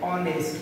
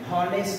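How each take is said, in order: First: The word begins with a vowel sound. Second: The word begins with an h sound. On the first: The speaker calls it right. "এটির উচ্চারণ হবে অনেস্ট" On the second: The speaker calls it wrong. "এটার উচ্চারণ হনেস্ট না"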